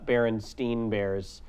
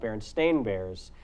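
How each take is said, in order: First: The name's last syllable sounds like 'stine'. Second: The name's last syllable sounds like 'stain'. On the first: This is how most people remember the name. The speaker calls it wrong. "everyone remembers it as" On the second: This is the actual name. The speaker calls it right. "when in fact it was"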